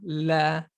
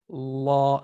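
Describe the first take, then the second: First: The L is light, with the tongue back lowered. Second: The L is heavy, with the tongue back raised. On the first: "the normal way" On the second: "feel how the back, the back of your tongue rose up"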